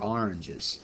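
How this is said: Oranges is said in a New Jersey accent. The speaker calls it right. "My great Jersey accent"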